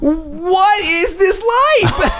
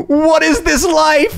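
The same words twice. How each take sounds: First: High, slow laughing shout; laughing disbelief. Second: High, slow amazed cry; drawn out in utter disbelief; stunned disbelief. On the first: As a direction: cry it out through laughter. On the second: Disbelief at the oil painting. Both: Retold or imitated.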